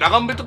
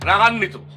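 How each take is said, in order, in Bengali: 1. 'bito' এর আগের ব্যঞ্জনটি m ধ্বনি। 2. 'bito' এর আগের ব্যঞ্জনটি n ধ্বনি। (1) "রাগাম্বিত কি" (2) "এটার উচ্চারণ হইতেছে রাগান্বিত"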